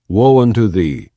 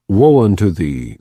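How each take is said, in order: Both takes have the same delivery.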